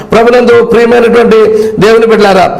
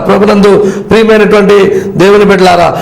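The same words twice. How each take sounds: Both takes have the same delivery.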